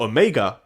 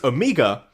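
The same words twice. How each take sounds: First: The name is said in the American way. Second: The name is said in a non-American way.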